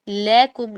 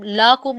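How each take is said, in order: First: लकुम with a short a after l; the right way, लकुम kept short; correct short la. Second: लाकुम with a stretched long a; the wrong way, लाकुम drawn out. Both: Shown as a demonstration. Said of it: "लाकुम नहीं पढ़ेंगे".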